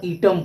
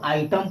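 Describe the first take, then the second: First: ईटम starting with a long "ee"; wrong "ee" pronunciation. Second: आइटम starting with an "eye" sound; long I pronunciation. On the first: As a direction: say ईटम as "EE-tum". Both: Shown as a demonstration. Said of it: "न कि first rule के अनुसार ईटम पढ़ेंगे".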